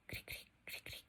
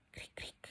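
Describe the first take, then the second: First: Whispered "cric, cric, cric, cric" trailing off; cricket silence. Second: Unvoiced "cric, cric" clicked out like crickets; cricket chirp. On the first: Teacher explaining awkward silence to students, whispered crickets. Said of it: "quedamos así como". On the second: Teacher reading the class exercise, cricket chirps whispered. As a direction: breathe the chirps into awkward silence. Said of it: "es como el sonido de los grillos". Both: Shown as a demonstration.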